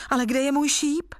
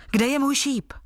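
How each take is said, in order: First: High-pitched, mildly plaintive question; unhappy objection. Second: Higher-pitched, mildly impatient question; impatient exclamation. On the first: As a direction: protest with a touch of dismay. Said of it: "namítl nejmladší bratr nešťastně". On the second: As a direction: call it out eagerly, as a storyteller would. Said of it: "zvolal nedočkavě". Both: A narrator's reading.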